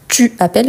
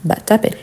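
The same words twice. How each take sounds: First: "tu appelles" with the u of "tu" fully sounded; full pronunciation. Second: "t'appelles" as one word, u of "tu" dropped; casually elide "tu appelles" into "t'appelles"; spoken elision. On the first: Teacher contrasts written form with speech, full pronunciation. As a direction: keep "tu" and "appelles" as two words. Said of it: "Et quand on parle, parfois, on dit". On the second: Teacher shows learners how people talk, spoken elision. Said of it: "parfois, on dit". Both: Shown as a demonstration.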